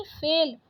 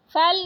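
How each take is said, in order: First: Said in the usual way. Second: फैल with open ai for "phel"; wrong vowel. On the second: Shown as a demonstration. Teacher rejecting a spelling, फैल with ai vowel. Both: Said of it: "फैल नहीं".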